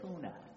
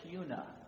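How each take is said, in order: First: The first syllable sounds like 'coo'. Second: The first syllable sounds like 'cue'. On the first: The speaker calls it wrong. "don't say Cuna. Don't make the mistake that I made" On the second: The speaker calls it right. "With a Q, like a cue ball, it's Cuna"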